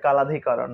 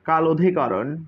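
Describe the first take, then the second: First: The two words are run together as one. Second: The two words are said separately. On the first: "এমনি উচ্চারণ মনে হয় কালাধিকরণ" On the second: "আমরা কাল অধিকরণই বলি"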